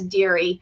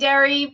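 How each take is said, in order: First: The first vowel sounds like 'ear'. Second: The first vowel sounds like 'air'. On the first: This is the original French way. The speaker calls it right. "it's actually French, so it's Deary" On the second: This is the common but mistaken way. The speaker calls it wrong. "Most people say Derry"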